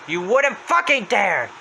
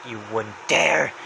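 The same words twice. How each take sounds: First: High, slow outburst; Happy's voice. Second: Low, slow warning; Happy's voice. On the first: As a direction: blow up on it, stretching the words. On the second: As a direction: draw it out as a controlled threat. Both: Retold or imitated. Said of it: "comes closer to him saying".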